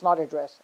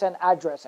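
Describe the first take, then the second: First: AdDRESS, stressed on the second syllable. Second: ADdress, stressed on the first syllable. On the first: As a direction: say "address" as the verb, weight on "dress". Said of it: "it's not address". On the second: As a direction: say "address" as the noun, punching "ad". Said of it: "That's why it's an address". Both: Shown as a demonstration.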